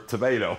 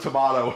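First: It is said with an American pronunciation. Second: It is said with a British pronunciation.

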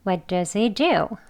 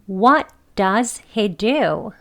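First: The word "does" is weakened to a short "us" sound. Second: The word "does" is pronounced fully and clearly. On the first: The word is not being emphasized in the sentence. "does를 이렇게 명확하게 발음하지 않고 does, does, us라고 발음되어지는 발음입니다" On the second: The speaker is talking slowly and carefully. "천천히 명확하게 발음을 하는 경우 does 이렇게 strong한 발음으로 해서 해보겠습니다"

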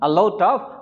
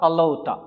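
First: It is said as full separate words. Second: It is reduced to one word ending in 'uh'.

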